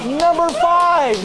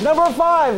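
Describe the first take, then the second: First: Slow, dragged-out "Number five" with a falling end; drawn-out number. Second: Said in the usual way. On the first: Acted. Host announcing the countdown to the crowd, slow and dragged out.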